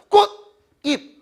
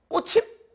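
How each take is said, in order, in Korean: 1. 두 부분을 따로 끊어서 발음해요. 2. 받침이 다음 모음으로 이어져서 발음해요. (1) "따로따로 꽃, 잎" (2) "꼬칩? 아니지"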